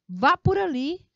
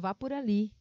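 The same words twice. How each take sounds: First: It is said loudly with strong emphasis. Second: It is said quietly with little emphasis. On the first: It is a firm, heated order. "Ele dá esse tom, tá bom? Um tom mais alterado até" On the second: It is a milder, lighter order. "Ele tem menos ênfase"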